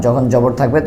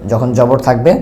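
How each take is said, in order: Both takes have the same delivery.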